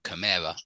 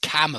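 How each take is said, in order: First: The stress falls on an unusual syllable. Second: The stress falls on the usual syllable. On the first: The speaker calls it wrong. "and not camera" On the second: The speaker calls it right. "it's always camera"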